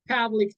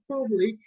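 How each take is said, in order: First: The first P is released with a strong burst. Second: The first P is released weakly, without a burst. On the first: The speaker calls it right. "remember the P is explosive" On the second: The speaker calls it wrong. "It's not public"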